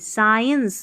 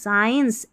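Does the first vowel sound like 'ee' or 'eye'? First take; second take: eye; eye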